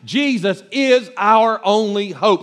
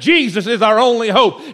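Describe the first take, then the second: First: It is said quietly and gently. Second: It is said loudly, like a preacher.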